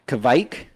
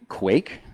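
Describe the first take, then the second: First: The K is followed by a V sound. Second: The K is followed by a W-like sound. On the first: "with a little V sound is apparently okay too" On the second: "if you're in northern Norway regions"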